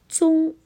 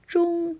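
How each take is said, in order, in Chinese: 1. 第一个辅音是舌头平着发的。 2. 第一个辅音是舌头卷起来发的。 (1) "变成了中，没有卷舌音" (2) "把中的卷舌音"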